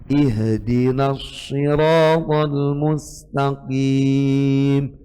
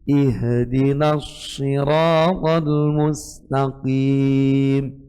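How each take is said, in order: The two takes are said the same way.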